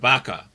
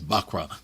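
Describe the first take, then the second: First: The word is said without an r sound. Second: The word is said with an r sound. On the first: The speaker calls it wrong. "y'all said it wrong" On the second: The speaker calls it right. "It's Bakra"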